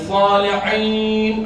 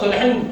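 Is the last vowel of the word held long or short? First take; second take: long; short. First: The final long vowel is held out. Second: The final vowel is cut short quickly. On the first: The speaker calls it right. "itu tak apa" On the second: The speaker calls it wrong. "cepat. Salihin tak boleh"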